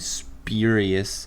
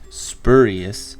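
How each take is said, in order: First: The word is said rhyming with curious. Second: The word is said not rhyming with curious. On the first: The speaker calls it right. "I should know how to pronounce the word it rhymes with" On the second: The speaker calls it wrong. "I have hurt by pronouncing spurious as spurious"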